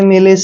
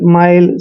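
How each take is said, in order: First: It is two syllables with a short 'i' vowel. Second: It is one syllable with an 'eye' vowel. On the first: The speaker calls it wrong. "ऐसे नहीं पढ़ना है" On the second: The speaker calls it right. "I L E का उच्चारण आइल करेंगे"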